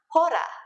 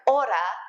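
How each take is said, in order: First: The word starts with an audible h sound. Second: The word starts with a vowel, h silent. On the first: The speaker calls it wrong. "is not hora" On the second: The speaker calls it right. "just like hora"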